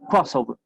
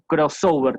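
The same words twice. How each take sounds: First: The stress is on the first syllable. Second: The stress is on a later syllable. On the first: The speaker calls it right. "el énfasis lo pongo en la primera sílaba" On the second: The speaker calls it wrong. "como decimos a veces en, en español, que ponemos el acento ahí por cualquier lado"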